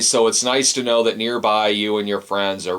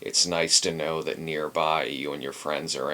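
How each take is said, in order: First: It is read in a plain, friendly tone. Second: It is said in a menacing, threatening tone. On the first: The writer is glad to live close by. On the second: The writer is hinting at a threat.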